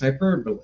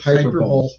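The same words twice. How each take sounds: First: The word is said in its usual form. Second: The word is sounded out as it looks written. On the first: "when I hear it, I go, I know what that means" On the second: "when I saw it written down, I pronounced it"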